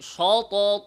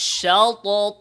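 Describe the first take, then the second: First: The sh sound is thick and heavy. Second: The sh sound is thin and light. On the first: The speaker calls it wrong. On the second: The speaker calls it right.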